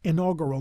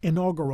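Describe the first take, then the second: First: The third syllable has an 'eh' vowel. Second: The third syllable has an 'eh' vowel.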